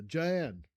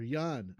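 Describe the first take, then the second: First: "Jan" begun with an English J sound; English J pronunciation. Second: "Jan" begun with a Y sound; Y-sound pronunciation. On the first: Host unsure of a viewer's name, "Jan" with a hard English J. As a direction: say "Jan" with the J of jam. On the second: Host offering another way to say the name, "Jan" as Yahn. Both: Shown as a demonstration. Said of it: "I don't know if".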